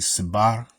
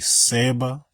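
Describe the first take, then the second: First: The word ends with an R sound. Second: The word ends in a vowel without R. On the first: "has more of an R sound to it" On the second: "we mostly say Seba"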